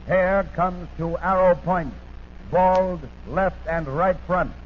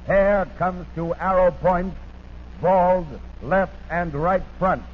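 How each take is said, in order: Both takes have the same delivery.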